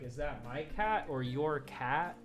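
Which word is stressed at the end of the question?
cat. The stress falls on the repeated final "cat". The speaker calls it wrong. "You wouldn't be like"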